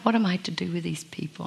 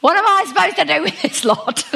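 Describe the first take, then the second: First: Soft, hushed, tired imitation of Moses; quiet weary question. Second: Much higher, laughing, exasperated imitation; exasperated Moses. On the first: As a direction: mutter it quietly like a worn-out leader. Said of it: "Do you think he was like". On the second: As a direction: throw up your hands in comic frustration, laughing. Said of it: "I reckon he was like".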